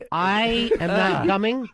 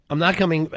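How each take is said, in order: First: Slow, spaced-out refusal; emphatic refusal. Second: Said in the usual way. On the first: Real, not acted. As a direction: spell it out slowly, word by word. Emphatic refusal before listing reasons.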